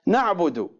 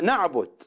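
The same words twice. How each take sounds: First: Said in the usual way. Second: نعبد read as another variant. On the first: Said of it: "يقرؤونها". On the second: Shown as a demonstration. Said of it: "يقرؤونها نعبد". (قراءة أخرى لنعبد)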